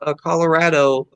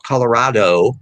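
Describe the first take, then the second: First: The stressed 'a' is said flat. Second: The stressed 'a' is said broad. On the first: This is how people in the West say it. The speaker calls it right. "we flatten our A, so it's" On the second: This is how it is not said in the West. The speaker calls it wrong.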